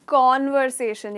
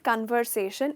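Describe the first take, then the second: First: The first syllable sounds like 'kon'. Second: The first syllable sounds like 'kun'. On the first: The speaker calls it right. "It is कॉन्वर्सेशन" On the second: The speaker calls it wrong. "It's not कन्वर्सेशन"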